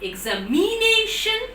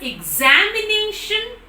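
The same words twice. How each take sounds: First: The stress is on the third syllable, mi. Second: The stress is on the second syllable, za. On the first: "you tell on me" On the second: "you put stress on za"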